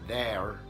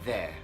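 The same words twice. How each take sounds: First: The final r sound is pronounced. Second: The final r sound is silent. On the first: "there in American English" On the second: "no R"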